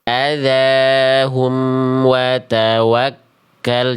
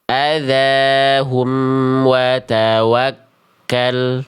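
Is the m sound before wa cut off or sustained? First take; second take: sustained; sustained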